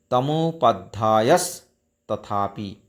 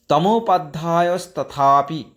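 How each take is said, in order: First: তমোপাধ্যায়স্তথাপি spoken slowly, each syllable spelled out; slow, careful Sanskrit pronunciation of তমোপাধ্যায়স্তথাপি; slow syllable-by-syllable recitation. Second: Said in the usual way. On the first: Shown as a demonstration. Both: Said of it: "কীভাবে উচ্চারণ হবে?".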